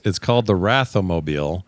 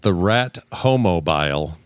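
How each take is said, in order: First: The name is divided as Ratho-mobile. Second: The name is divided as Rat-Homobile. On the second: "I first read that as the Rat Homobile"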